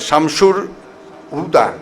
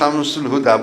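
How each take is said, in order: First: The first name ends with an R sound. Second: The first name ends with an L sound. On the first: The speaker calls it wrong. "একটু উচ্চারণ আলাদা হলো" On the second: The speaker calls it right. "আমার নাম শামসুল হুদা"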